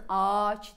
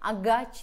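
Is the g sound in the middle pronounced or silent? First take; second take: silent; pronounced. First: The g is swallowed and the vowels are lengthened. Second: A hard g sound is pronounced in the middle. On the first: The speaker calls it right. "ağaç diyeceksin" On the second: The speaker calls it wrong. "agaç demeyeceksin"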